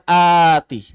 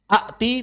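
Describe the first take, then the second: First: The first vowel is lengthened with no stop. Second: A glottal stop closes the first syllable. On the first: The speaker calls it right. "tapi dibaca ati" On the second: The speaker calls it wrong. "tidak dibaca ati"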